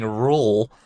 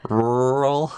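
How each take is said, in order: First: RURAL squashed into one syllable, like "rool"; imitated mispronunciation. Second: RURAL drawn out with heavy r sounds; careful pronunciation. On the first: Co-host echoing the other's slip, RURAL mispronounced as "rool". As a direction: mimic RURAL run together as "rool". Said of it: "you're saying rural". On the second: Shown as a demonstration. Co-host attempting a hard word, RURAL pronounced laboriously. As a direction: work through both r's of RURAL, louder.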